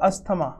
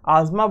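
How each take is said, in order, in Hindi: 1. बीच में साफ़ 'st' की आवाज़ है। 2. बीच में 'z' की आवाज़ है, 't' नहीं। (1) "पर इंडिया में तो भाई अस्थमा ही बोलना पड़ेगा" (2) "आजमा बोलते हैं"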